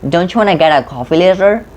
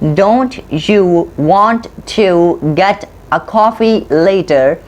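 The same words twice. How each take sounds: First: The words are squeezed together with reduced sounds. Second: Each word is pronounced fully and separately. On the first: "they squeeze it out" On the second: "You read"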